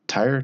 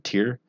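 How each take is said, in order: First: The name sounds like the car word tire. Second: The name does not sound like tire. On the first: The speaker calls it wrong. "Tyre just sounds weird, like it belongs on a car" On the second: The speaker calls it right. "I'm gonna go with Tyr"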